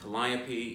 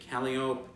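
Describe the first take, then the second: First: It is pronounced the standard way. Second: It is pronounced the local New Orleans way. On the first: This is how the name is normally said. The speaker calls it right. "Instead of saying Calliope" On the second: This is how locals say the street name. The speaker calls it wrong. "you say Calliope"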